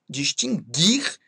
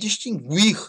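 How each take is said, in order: First: The u after the g is silent. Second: The u after the g is pronounced. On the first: The speaker calls it right. "não se pronunciam como ditongo" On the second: The speaker calls it wrong. "Nada de falar"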